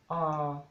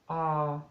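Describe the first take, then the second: First: The pitch stays level in the middle. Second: The same.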